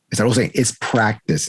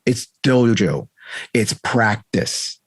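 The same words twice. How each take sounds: First: Said in the usual way. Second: Each word weighed, slow; slow and deliberate. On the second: Shown as a demonstration. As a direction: spell it out slowly.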